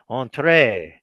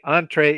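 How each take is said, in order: First: It is pronounced the French way. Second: It is pronounced the English way. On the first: "you can pretend to be a Frenchman" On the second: "is the normal English pronunciation"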